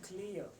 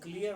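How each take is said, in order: First: The k sound has a puff of air. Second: The k sound has no puff of air. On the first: This is how native speakers say it. "वो बोलते हैं क्लियर" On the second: This is how Indian speakers say it. "हम बोलते हैं क्लियर"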